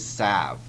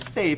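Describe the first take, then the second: First: The vowel is a short A sound. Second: The vowel is a long A sound. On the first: The speaker calls it wrong. "if I read the word save without the long A sound, I would mispronounce it" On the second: The speaker calls it right. "if I try that long E sound"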